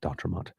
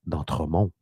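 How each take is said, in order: First: The name is pronounced with English sounds. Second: The name is pronounced with French sounds. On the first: This is probably how the man himself says it. "I'm guessing that he pronounces it D'Entremont" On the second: This is how a French speaker would say it. "as a francophone, I would say Chris D'Entremont"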